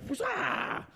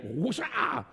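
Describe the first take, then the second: First: High soft whooshing noise, much higher pitched; a quiet high-pitched whoosh of the spinning yo-yo; whoosh sound. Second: Soft low whooshing noise like a yo-yo dropping; whoosh sound. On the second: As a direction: breathe out a quiet low whoosh as the yo-yo falls. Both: Retold or imitated. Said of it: "that whoosh-ah sound".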